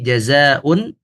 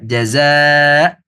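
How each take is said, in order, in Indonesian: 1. Kata ini diakhiri dengan akhiran -un penuh. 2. Kata ini diakhiri dengan bunyi glottal yang terhenti. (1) "Kita lihat di sini jazaun" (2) "jika kita baca dengan mensukunkan hamzah kita baca jaza"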